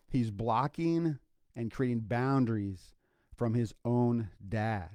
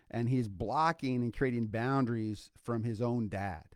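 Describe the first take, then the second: First: Slowed down, each word weighed out; slow deliberate repeat. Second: Said in the usual way. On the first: Shown as a demonstration. Podcast host repeating the key line to listeners, slow and deliberate. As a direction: let the line land slowly so it sinks in. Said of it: "Let that sink". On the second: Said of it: "Did you hear that?".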